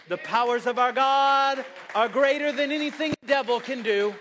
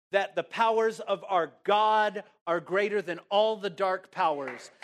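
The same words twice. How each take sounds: First: Raised, higher-pitched preacher's proclamation; triumphant pulpit cry; impassioned preaching. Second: Said in the usual way. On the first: Real, not acted. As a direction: proclaim it at full force to the congregation. Repeats the line at full force.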